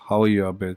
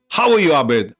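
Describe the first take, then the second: First: It sounds weary and fed up. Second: It sounds excited and enthusiastic. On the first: The speaker is fed up or depressed. "last one is I'm sick and tired of you, or I'm depressed" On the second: The speaker is delighted to see the listener. "first one is wow"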